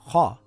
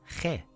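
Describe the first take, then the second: First: The syllable is pronounced heavy with a deep vowel. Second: The syllable is pronounced light with a thin vowel. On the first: The speaker calls it right. "these two letters are heavy letters. So this is kha" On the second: The speaker calls it wrong. "and not khe"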